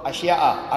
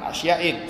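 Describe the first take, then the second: First: The word ends in a plain -a vowel. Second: The word ends in an -in sound. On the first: The speaker calls it right. "Yang betul asya'a" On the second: The speaker calls it wrong. "bukan asya'in, salah"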